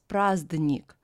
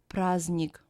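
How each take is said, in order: First: A d sound is heard after the z. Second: No d sound is heard after the z. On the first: The speaker calls it wrong. "We don't pronounce it as праздник" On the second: The speaker calls it right. "but праздник"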